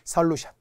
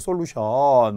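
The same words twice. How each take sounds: First: The first vowel is an unrounded 'eo' sound. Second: The first vowel is a rounded 'o' sound. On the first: The speaker calls it right. "어로 발음이 나야 합니다" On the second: The speaker calls it wrong. "솔루션이라고 하죠"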